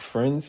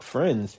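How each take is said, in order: First: The word is said in a hopeful, questioning tone. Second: The word is said in a scoffing, dismissive tone. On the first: The speaker is asking to be friends. "Can we be friends? Question mark" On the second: The speaker rejects being only friends. "like you want to be friends, like nah, I can't just be friends"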